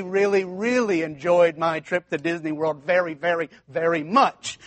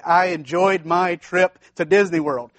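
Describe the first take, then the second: First: Each really leaned on in turn; a student stretching a plain sentence with really, really and very, very; padded with really. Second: Said in the usual way. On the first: Retold or imitated. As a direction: pile on the really and very to pad it out. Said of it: "that's not long enough". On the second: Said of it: "you have a three hundred word essay".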